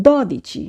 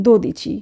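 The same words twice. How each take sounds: First: দদিচি with an open "daw" first syllable; correct open O. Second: দোদিচি with a closed "doh" first syllable; wrong closed O. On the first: Teacher models Italian twelve, দদিচি with open first o. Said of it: "আমরা বলবো". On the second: Teacher shows what not to say for twelve, দোদিচি with closed o. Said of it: "আমরা বলবো না". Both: Shown as a demonstration.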